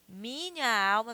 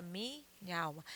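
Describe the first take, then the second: First: Said in the usual way. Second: "minha alma" fused as mi-nhalma; vowels run together. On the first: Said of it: "Minha alma vira minha alma". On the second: Shown as a demonstration. Teacher showing poetic elision, "minha alma" said as mi-nhalma. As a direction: say "minha alma" with the two a's merged into one. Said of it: "você fala minha alma".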